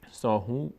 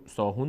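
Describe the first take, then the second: First: ساهون left open on "hu"; open-ended ساهون without the stopped nun; continuing form. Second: ساهون with the final n sounded; ساهون closed off with a clear n; stopping form. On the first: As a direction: say ساهون as "saahu", dropping the closing n. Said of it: "اگر ادامه بدیم ساهون نمیشه". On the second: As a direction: end ساهون on a closed nun, as when stopping. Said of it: "اگر بیستیم". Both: Shown as a demonstration.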